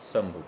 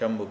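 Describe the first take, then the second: First: The word begins with an 's' sound. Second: The word begins with an 'sh' sound. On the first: "दंतेसा का ही प्रयोग किया जाता है" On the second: "तालव्यशा का उपयोग नहीं है, बल्कि उसकी जगह भी दंतेसा"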